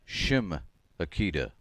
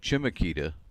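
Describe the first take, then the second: First: The name begins with an sh sound. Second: The name begins with a sound other than sh. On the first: The speaker calls it right. "it's a sh sound" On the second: The speaker calls it wrong. "people pronounce it Chimakita, but that's not correct"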